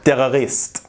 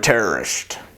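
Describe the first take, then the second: First: The word is said with a French accent. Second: The word is said with an English accent.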